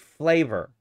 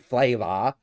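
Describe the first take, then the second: First: It is said with an American accent. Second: It is said with a British accent. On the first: This is how Americans say it. The speaker calls it right. "We say flavor" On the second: This is how people in the UK say it. The speaker calls it wrong. "We don't say flavor"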